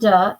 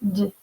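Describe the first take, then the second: First: The d sound has an added vowel after it. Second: The d sound is clipped with no vowel after. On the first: The speaker calls it wrong. "It's not duh" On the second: The speaker calls it right. "it's just that d sound"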